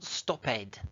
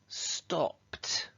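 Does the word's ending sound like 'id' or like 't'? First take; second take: id; t. First: The ending is an extra id syllable. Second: The ending is a short t sound. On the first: The speaker calls it wrong. "It's not stopped. We never say ed in English" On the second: The speaker calls it right. "we say it like a t"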